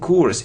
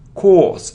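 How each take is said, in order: First: The vowel is short. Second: The vowel is long. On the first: The speaker calls it wrong. "It isn't course" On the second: The speaker calls it right. "And it's a long sound"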